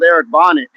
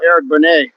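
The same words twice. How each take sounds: First: "Bonnet" said like the hat, T sounded; "Bonnet" read out just as it is spelt; misspelt name read literally. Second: "Bonet" with a silent T, ending in an "ay" sound; "Bonet" rhyming with "away"; intended name pronunciation. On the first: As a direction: stress the first syllable of "Bonnet". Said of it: "You spelled Eric Bonnet". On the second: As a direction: say "Bonet" French-style, stressed on the end. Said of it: "that's how you spell". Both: Shown as a demonstration.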